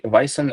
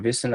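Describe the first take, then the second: First: "Vysen" with a long I, VY-sen; first pronunciation attempt. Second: "Vysen" with an ee sound, VEE-sen; alternative pronunciation. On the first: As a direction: say "Vysen" to rhyme the first syllable with "eye". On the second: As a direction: say "Vysen" so the first syllable rhymes with "see". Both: Shown as a demonstration. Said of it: "not sure if I'm pronouncing your name correctly".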